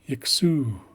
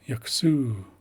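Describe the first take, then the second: No difference in how they are said.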